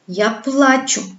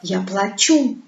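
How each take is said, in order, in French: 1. L'accent tombe sur la première syllabe. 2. L'accent tombe sur la deuxième syllabe. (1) "L'accent tombe sur la première syllabe" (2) "L'accent tombe sur la deuxième syllabe"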